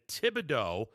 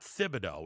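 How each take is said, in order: First: The name begins with a plain t sound. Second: The name begins with a th sound. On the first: The speaker calls it right. "even though the uh, there is an H involved" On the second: The speaker calls it wrong. "not Thibodeau"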